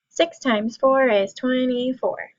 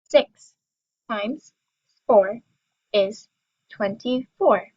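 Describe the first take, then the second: First: It is said fastest of all. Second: It is said at a slow, normal pace.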